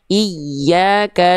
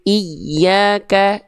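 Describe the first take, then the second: No difference in how they are said.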